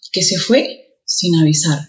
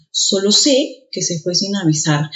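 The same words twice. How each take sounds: First: Said in the usual way. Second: Sé said stronger; stress on sé. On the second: Shown as a demonstration. Teacher demonstrating stressed sé. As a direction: press on the word sé. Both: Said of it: "el primero suena más".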